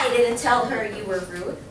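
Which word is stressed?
didn't. The word didn't carries the stress. The claim of having said it is flatly denied. "I didn't say that"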